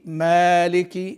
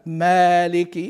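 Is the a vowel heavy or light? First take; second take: light; light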